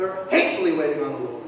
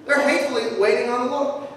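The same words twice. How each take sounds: First: Low, quick, soft grumble of hatefully; low grumbling aside; muttered hatefully. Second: Said in the usual way. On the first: Shown as a demonstration. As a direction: mumble it like a sour churchgoer. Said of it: "We hatefully wait for the Lord".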